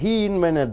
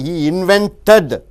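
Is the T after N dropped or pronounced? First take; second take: dropped; pronounced. First: The T after N is dropped. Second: The T after N is pronounced. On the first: The speaker calls it right. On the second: The speaker calls it wrong.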